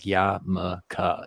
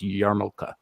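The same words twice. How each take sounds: First: The R and L sounds are dropped. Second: The R and L sounds are pronounced. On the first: The speaker calls it wrong. "they drop the R... so they'll be like yarmulke" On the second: The speaker calls it right. "It's it's yarmulke"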